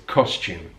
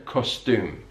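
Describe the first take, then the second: First: "costume" said kos-chume; low, falling British "costume" with ch; yod coalescence. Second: "costume" said with a plain t, kos-toom; contrasted pronunciation. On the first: Teacher giving learners the British form, coalesced pronunciation. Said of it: "we have a kind of ch". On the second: Teacher showing what British speakers avoid, yod-dropped pronunciation. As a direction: drop the ch in "costume", t straight into oo. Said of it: "rather than costume". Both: Shown as a demonstration.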